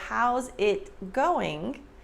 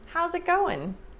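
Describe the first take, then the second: First: Each word is pronounced fully and separately. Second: The words link together and the final g drops.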